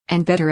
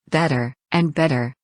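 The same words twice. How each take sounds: First: Final "better" pitched up toward a squeak; climbing squeal on the last "better"; rising to a squeak. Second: Said in the usual way. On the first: A narrator's reading. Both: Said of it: "Her voice went higher with each".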